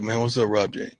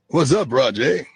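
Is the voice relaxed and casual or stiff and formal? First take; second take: casual; formal. First: It is said in a relaxed, casual voice. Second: It is said in a stiff, formal voice.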